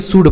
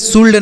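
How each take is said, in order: First: The word is said without an L sound. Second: The word is said with an L sound. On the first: The speaker calls it right. "बल्कि सुड पढ़ा जाएगा" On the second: The speaker calls it wrong. "इसे सुल्ड नहीं पढ़ा जाएगा"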